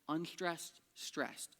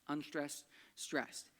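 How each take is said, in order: No difference in how they are said.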